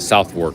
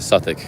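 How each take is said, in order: First: The name is said fully, like 'South-wark'. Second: The name is reduced, sounding like 'Suffolk'. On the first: This is how the speaker says it. "I pronounce it Southwark" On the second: This is how someone else says it. "He pronounced it Suffolk"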